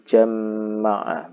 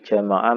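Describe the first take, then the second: First: The m sound is doubled and held. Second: The m sound is short and single.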